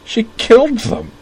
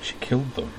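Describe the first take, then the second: First: "She killed them!" cried out far higher and louder, slow, killed wailed; breaking down. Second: A higher, softer, strained "She killed them", killed held fragile; barely holding together, voice thin and brittle. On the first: Corwin breaking down in front of Utena, broken cry. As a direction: voice cracking as the tears come. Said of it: "as he repeated brokenly". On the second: Corwin telling Utena of the killing, brittle and hushed. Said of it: "he said in a brittle voice". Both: A narrator's reading.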